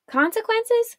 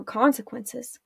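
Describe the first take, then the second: First: Much higher, startled question; shocked echo. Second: Said in the usual way. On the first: A narrator's reading. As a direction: throw the word back in disbelief. Arella echoes in shock.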